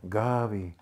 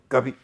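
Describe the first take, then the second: First: The name is said softly and warmly. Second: The name is said flatly, without warmth. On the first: The speaker loves the person named. The speaker calls it right. "even the name brings sweetness, sweet remembrance of her, so it is sweet" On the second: The name is only a label for calling someone. The speaker calls it wrong. "you don't say, like the Germans"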